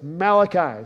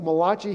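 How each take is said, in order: First: The name is given a non-Italian pronunciation. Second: The name is given an Italian-sounding pronunciation. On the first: The speaker calls it right. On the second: The name would belong to an Italian. The speaker calls it wrong. "If it was a Malachi, he'd be Italian"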